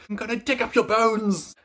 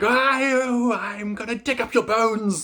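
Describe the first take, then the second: First: High eerie ghostly cry; spooky ghost voice. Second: High, slow, eerie ghostly wail; spooky ghost voice. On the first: Reader groaning at a Bronte-style gothic novel, ghostly wail. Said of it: "I was like". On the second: Reader mocking a gothic novel with a ghost wail. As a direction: moan it out like a haunting ghost. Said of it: "the same kind of like". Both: Retold or imitated.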